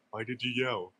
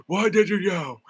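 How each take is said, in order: First: Said in the usual way. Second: High, loud mock angry outburst; crashing out. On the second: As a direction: blow up at him, half playful. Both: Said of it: "Starts crashing out on him".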